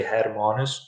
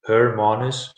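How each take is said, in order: First: Hermanus with an open "har" first syllable; alternative pronunciation. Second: Hermanus with a first syllable like "her"; alternative pronunciation. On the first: Teacher giving learners the other way to say the town, Hermanus said as "har-MAH-nus". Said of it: "but you can also say Hermanus". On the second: Teacher showing learners how some people say the town, Hermanus said as "her-MAH-nus". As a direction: say Hermanus opening on an r-coloured "her". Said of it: "some people pronounce it Hermanus". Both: Shown as a demonstration.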